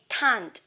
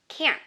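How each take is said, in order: First: It is said with a British accent. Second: It is said with an American accent. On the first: "For British English, you say can't" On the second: "for American English, you say can"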